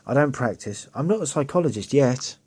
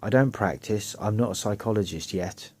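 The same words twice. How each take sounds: First: It is read in a lively, expressive tone. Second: It is read in a flat, even tone.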